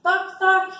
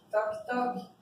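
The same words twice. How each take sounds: First: Playful modelled word, first take. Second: Said in the usual way. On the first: Shown as a demonstration. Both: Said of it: "Depois eu faço sim".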